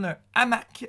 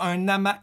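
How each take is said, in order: First: The two words are kept apart without linking. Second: The two words are joined with a linking sound. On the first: The speaker calls it right. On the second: The speaker calls it wrong.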